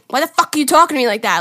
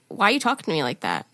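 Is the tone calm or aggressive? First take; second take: aggressive; calm. First: It is said aggressively and bitchy. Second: It is said calmly, without aggression.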